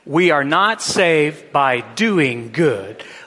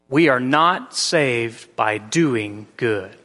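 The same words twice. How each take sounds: First: It is said with lively enthusiasm. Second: It is said flatly, with low energy.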